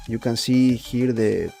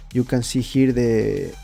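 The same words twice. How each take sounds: The two takes are said the same way.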